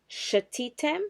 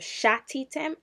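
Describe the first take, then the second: First: The first vowel is a short schwa. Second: The first vowel is a full 'a' sound. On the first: The speaker calls it right. "we're going to have the shva sound" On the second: The speaker calls it wrong. "instead of shatitem"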